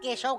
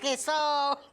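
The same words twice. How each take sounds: First: The middle consonant is a sh sound. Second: The middle consonant is an s sound. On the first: The speaker calls it right. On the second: The speaker calls it wrong.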